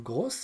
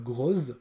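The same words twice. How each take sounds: First: The word ends with a hissing s sound. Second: The word ends with a buzzing z sound. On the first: The speaker calls it right. "je n'oublie pas les deux S" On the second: The speaker calls it wrong. "non pas grosse"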